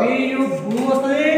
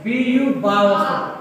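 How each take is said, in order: First: "బూ" with a drawn-out oo vowel; long oo in BU. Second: "బా" with an open ah vowel; ah sound in BU. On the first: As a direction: slowly show "బూ" as boo, with long oo. ("బూ"లో ఊ దీర్ఘంగా, నెమ్మదిగా పలకడం) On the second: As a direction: slowly show "బా" as bah, not boo. ("బా"లో ఆ శబ్దం, నెమ్మదిగా పలకడం) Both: Shown as a demonstration.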